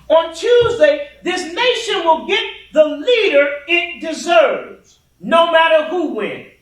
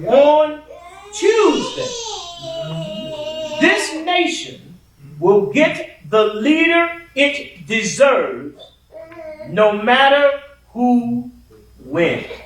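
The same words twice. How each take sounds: First: The sentence is said at a normal pace. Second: The sentence is said at a slower pace.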